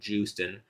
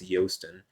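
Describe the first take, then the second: First: The name starts with a J sound. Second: The name starts with a Y sound. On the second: "But I understand it's Yosten"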